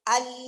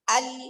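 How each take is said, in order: Both takes have the same delivery.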